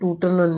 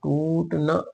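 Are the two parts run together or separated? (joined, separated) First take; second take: joined; separated. First: The two parts are run together as one word. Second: The two parts are said as separate words. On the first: The speaker calls it wrong. "ਤੁਸੀਂ ਇਹਨੂੰ ਟੂਟਨ ਨਹੀਂ ਪੜ੍ਹਨਾ" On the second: The speaker calls it right. "ਟੂਟ ਨਾ ਇਸ ਤਰ੍ਹਾਂ ਪਾਠ ਕਰਨਾ ਹੈ"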